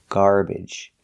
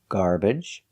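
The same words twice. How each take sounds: First: The second syllable has an ih vowel. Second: The second syllable has an uh vowel. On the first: "the third correct pronunciation is ij" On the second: "You can use the uh sound, like cup and up"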